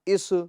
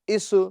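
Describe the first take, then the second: First: The final consonant ends with an echoing bounce. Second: The final consonant ends with an echoing bounce.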